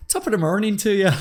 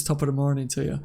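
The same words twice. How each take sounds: First: High, lilting mock-Irish; badly faked Irish lilt, breaking into laughter; Irish accent. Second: Said in the usual way. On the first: Shown as a demonstration. Streamer doing his requested Irish impression, hammed-up Irish accent. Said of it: "what was my Irish impression?". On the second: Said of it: "that's what you lot said to me to say before".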